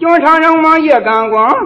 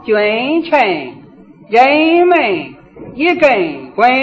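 First: It is recited in a faster, tighter Shanxi style. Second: It is recited in a gentle, steady Shaanxi style.

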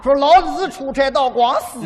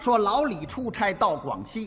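First: It is said in a Hefei dialect accent. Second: It is said in standard Mandarin.

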